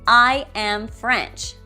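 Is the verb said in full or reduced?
full. The verb am is said fully and clearly.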